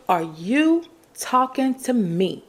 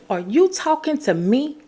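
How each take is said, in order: First: Said in the usual way. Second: Higher, challenging "Are you talking to me?" with a rising "you"; with attitude. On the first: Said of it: "You gotta say it with an attitude". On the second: Shown as a demonstration. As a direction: say it from the chest, daring them to answer. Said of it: "with that, um, with your chest".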